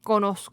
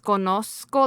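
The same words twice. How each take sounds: First: The z is a very soft sound. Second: The z is a clear, sharp s sound. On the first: This is how speakers from another region say it. "they say conozco like conos like conozco like the S is like very like soft" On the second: This is how it is usually heard. "I always hear the Z like like as conozco like as like a s S sound"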